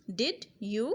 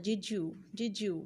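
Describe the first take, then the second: First: Said in the usual way. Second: "did you" slowly merged into "didju" with a j sound; blended did you. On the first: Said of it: "जब mix करते जाएंगे तो वो बन जाएगा". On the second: Shown as a demonstration. Teacher showing the j sound in did you. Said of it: "जे, जीम की आवाज़ है".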